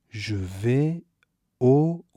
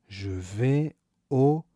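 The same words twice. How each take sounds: The two takes are said the same way.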